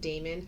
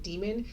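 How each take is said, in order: First: It is said differently from the word demon. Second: It is said like the word demon. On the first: The creatures are not actual devils. The speaker calls it right. "So I pronounce it daemon" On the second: The creatures are devils. The speaker calls it wrong. "as opposed to saying it demon"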